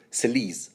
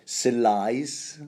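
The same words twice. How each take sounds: First: Selice with a long ee, like "suh-leece"; French pronunciation. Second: Selice with a long eye vowel, like "sigh-lice"; anglicised name. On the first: Host picking the French version of a name, French pronunciation. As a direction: say Selice the French way, rhyming with fleece. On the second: Reader trying out a character's name, anglicised pronunciation. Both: Shown as a demonstration. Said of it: "give you the French pronunciation".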